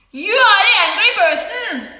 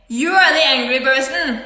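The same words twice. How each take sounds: First: High, heated accusation; raised angry voice. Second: Said in the usual way. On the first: Retold or imitated. Speaker turns the anger charge back on the accuser, raised angry voice. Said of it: "I'm using a loud voice".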